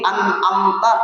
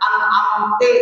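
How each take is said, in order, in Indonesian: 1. Kata itu berakhir dengan vokal 'a'. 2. Kata itu berakhir dengan vokal 'i'.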